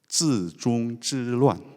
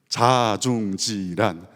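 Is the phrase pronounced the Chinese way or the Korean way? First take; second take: Chinese; Korean. First: It is said with Mandarin sounds and tones. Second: It is said with Korean sounds and no tones.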